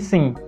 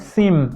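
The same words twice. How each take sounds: First: The word ends on a nasal vowel, lips open. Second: The word ends with the lips closing on m. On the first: "ao invés de" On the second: "passando a falar a palavra sim"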